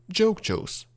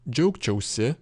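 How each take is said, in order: First: Džiaugčiaus ending on bare s; shortened ending. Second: Džiaugčiausi with the final i; full ending. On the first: Teacher contrasting long and short forms, džiaugčiaus without final i. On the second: Teacher contrasting long and short forms, džiaugčiausi with full si. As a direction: sound the whole si in džiaugčiausi. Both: Shown as a demonstration. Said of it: "sometimes we can shorten".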